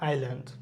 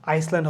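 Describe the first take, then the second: First: No s sound is heard in the middle. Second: An s sound is pronounced in the middle. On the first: The speaker calls it right. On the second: The speaker calls it wrong.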